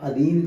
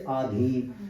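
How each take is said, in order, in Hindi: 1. पहला स्वर ह्रस्व है। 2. पहला स्वर दीर्घ है।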